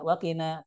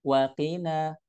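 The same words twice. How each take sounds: First: Wakina as one short word; run together. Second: Wa alone, kina drawn out; separated words. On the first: Teacher showing what not to read, run together. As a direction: say "wakina" joined up. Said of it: "bukan wakina". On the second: Teacher showing wa and kina separately, separated words. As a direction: say "wakina" slowly as wa, then kina. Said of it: "Wa sendiri, kina sendiri". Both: Shown as a demonstration.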